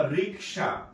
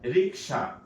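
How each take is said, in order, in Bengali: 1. k ধ্বনিটি s ধ্বনির আগে আসে। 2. k ধ্বনিটি s ধ্বনির আগে আসে।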